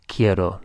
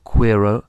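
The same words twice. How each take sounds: First: Quiero with a hard K: "kee-EH-ro"; K sound. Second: Quiero said wrongly as "kwee-ro" with a W; wrong KW sound. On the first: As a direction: say quiero starting with a clean K, no W. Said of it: "it's always pronounced like a K". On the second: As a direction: mispronounce quiero with a KW. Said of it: "not quiero". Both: Shown as a demonstration.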